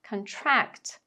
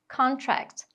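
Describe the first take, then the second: First: The stress is on the second syllable. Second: The stress is on the first syllable. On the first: It is a verb. "Para os verbos, a sílaba tônica vai ser a segunda" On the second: It is a noun. "os substantivos... vão ter a sílaba tônica marcada ali na primeira"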